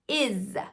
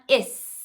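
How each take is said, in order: First: The word ends with a buzzing Z sound. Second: The word ends with a hissing S sound. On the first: The speaker calls it right. "it's is" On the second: The speaker calls it wrong. "It's not is"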